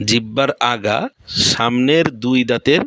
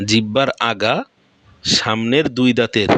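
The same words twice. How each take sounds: The two takes are said the same way.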